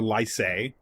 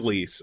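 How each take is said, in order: First: The vowel sounds like the one in 'nice'. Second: The vowel sounds like the one in 'peace'. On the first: "it sounds like lice" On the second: "it is lease"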